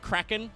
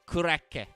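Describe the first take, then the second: First: The word ends with an n sound. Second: The word ends with a vowel sound. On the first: "full blown kraken" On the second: "the Japanese pronunciation of this is very funny"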